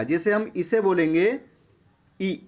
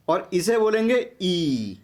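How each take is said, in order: First: Short vowel ई said quick and clipped. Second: ई drawn out long and slow. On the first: Teacher demonstrating the short vowel to students, brief ई. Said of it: "इसमें बोलने में अधिक समय लगा". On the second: Teacher contrasting the long vowel for students, slow drawn-out ई. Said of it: "इसमें अधिक समय लगा बोलने में". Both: Shown as a demonstration.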